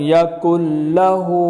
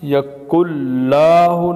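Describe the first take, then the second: First: The vowel after the l is short. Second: The vowel after the l is stretched long. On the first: The speaker calls it right. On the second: The speaker calls it wrong.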